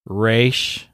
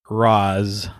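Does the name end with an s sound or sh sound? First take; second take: sh; s. First: The name ends with an sh sound. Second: The name ends with a plain s sound. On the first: The speaker calls it wrong. "it has been pronounced Ra'sh" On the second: The speaker calls it right. "I tend to say Ra's al Ghul"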